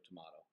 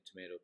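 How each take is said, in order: First: "tomato" with an open ah; "tomato" with ah in the middle; British tomato. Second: "tomato" with a long ay; "tomato" rhyming with potato; American tomato. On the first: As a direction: say "tomato" as to-MAH-to, softly. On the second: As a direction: say "tomato" as to-MAY-to, softly. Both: Shown as a demonstration. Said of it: "Let's call the whole thing off".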